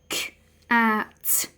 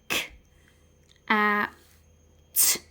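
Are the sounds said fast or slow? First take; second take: fast; slow. First: The three sounds are said quickly, closer together. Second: The three sounds are said slowly, spaced apart.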